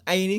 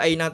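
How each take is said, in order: First: The word ends with an i vowel. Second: The word ends with an a vowel. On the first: The speaker calls it wrong. "nggak boleh" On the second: The speaker calls it right.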